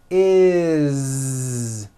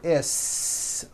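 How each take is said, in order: First: The ending is a voiced, buzzing z sound. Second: The ending is an unvoiced, hissing s sound. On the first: The speaker calls it right. "we always add the ending is with a voiced Z" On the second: The speaker calls it wrong. "It's never is, unvoiced, never"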